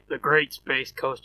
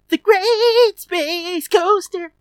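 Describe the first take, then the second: First: It is said flatly, without excitement. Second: It is said with dramatic excitement.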